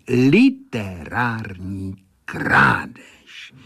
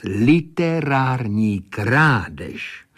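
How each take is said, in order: First: "Literární krádež" stretched very slowly, "Literární" swelling most; savoured accusation. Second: "Literární krádež" said slowly, with weight on "Literární"; pointed accusation. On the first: Critic sways before the pupil, "Literární krádež" drawn out tauntingly. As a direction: draw out every syllable of "Literární krádež". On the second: Critic names the pupil's offence, "Literární krádež" slow and accusing. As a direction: pronounce "Literární krádež" as a slow, deliberate verdict. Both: A narrator's reading.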